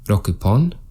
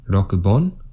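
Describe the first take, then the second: First: The word ends with a 'pon' syllable. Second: The word ends with a 'bon' syllable. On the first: The speaker calls it right. "We've got pon after six" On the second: The speaker calls it wrong. "This is incorrect"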